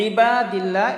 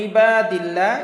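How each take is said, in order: The two takes are said the same way.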